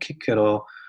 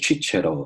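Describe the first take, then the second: First: The name is said with Latin pronunciation. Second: The name is said with Italian pronunciation. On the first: "in Latin, you pronounce like" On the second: "in Italy, it's like a"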